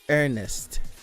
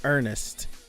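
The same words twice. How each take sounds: Both takes have the same delivery.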